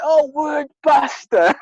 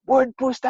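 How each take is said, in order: First: "buster" said with a short u, like bus, slowly and high; right pronunciation. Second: "booster" said with a long oo, like boost, in a raised puzzled voice; wrong pronunciation. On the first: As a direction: draw out "Oh, word buster." with a short u in buster, high and slow, dawning. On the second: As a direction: ask "Word booster?" with a long oo in booster, pitched high. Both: Retold or imitated. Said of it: "It says B U S T R".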